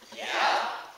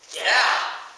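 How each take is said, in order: First: It is said at normal, softer volume. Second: It is said loudly.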